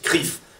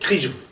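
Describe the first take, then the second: First: The acronym is said without a 'j' sound. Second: The acronym is said with a 'j' sound. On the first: This is how people actually say it. "Et en fait, on prononce" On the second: This is how the full name should be abbreviated. "normalement, vous devez prononcer"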